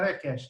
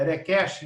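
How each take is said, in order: First: It is said with a Brazilian Portuguese accent. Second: It is said with an English-sounding foreign accent. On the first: The speaker calls it wrong. "não vai falar request" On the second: The speaker calls it right. "com sotaque gringo"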